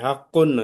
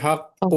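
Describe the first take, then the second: First: The word ends with an added n sound. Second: The word ends on a short vowel. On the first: The word carries a double vowel mark. "దమ్మతేన్ ఉంటే నూన్ శబ్దం వచ్చేది" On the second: The word carries a single vowel mark. "కానీ సింగిల్ దమ్మ ఉంది"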